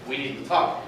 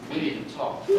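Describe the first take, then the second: First: A mild, ominous "We need to talk." in quotes; quoted phrase. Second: Hushed, ominous whisper of a parent. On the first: Texting mom, quoting the dreaded phrase, mildly ominous. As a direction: set "We need to talk." apart as a loaded phrase. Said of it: "And I put it in quotes". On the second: Parent announcing a serious talk, hushed and ominous. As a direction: breathe it like a warning. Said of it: "when one of your parents says". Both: Retold or imitated.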